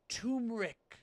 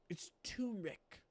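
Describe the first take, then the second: First: Said in the usual way. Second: Soft secret-telling voice; hushed reveal. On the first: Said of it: "repeats the word aloud". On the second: Shown as a demonstration. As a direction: let them in on a secret. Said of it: "reveals the secret ingredient".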